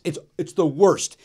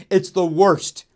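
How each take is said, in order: First: Said in the usual way. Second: Louder, pointed rant at club owners; half-joking loud complaint; raised call-out. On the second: Acted. Calling out comedy club owners.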